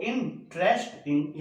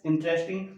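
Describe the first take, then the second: First: Slow इंटरेस्टिंग, pulled apart into its syllables. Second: Said in the usual way. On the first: Shown as a demonstration. Teacher counting syllables for students, slow and separated. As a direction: stretch इंटरेस्टिंग out slowly so each syllable is heard. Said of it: "ये तो तीन syllable हो गए इसमें". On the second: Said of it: "इंटरेस्टिंग को भी दो syllable में है".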